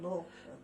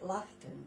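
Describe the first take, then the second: First: The first syllable sounds like 'law'. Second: The first syllable sounds like 'laugh'. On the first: This is how the town is really pronounced. The speaker calls it right. "instead of Lawton" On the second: This is how the broadcaster mispronounced the town. The speaker calls it wrong. "he pronounced it Laughton"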